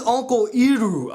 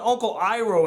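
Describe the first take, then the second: First: "Iroh" said EE-roo, with an ee start; mock the film by saying "Iroh" as EE-roh; film's pronunciation. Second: "Iroh" said EYE-roh, with a long i; familiar pronunciation. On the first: Reviewer questions the film's name, "Iroh" as EE-roh. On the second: Shown as a demonstration. Reviewer gives the name they know, "Iroh" as EYE-roh. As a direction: say "Iroh" starting like the word eye. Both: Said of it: "I only know an Uncle Iroh".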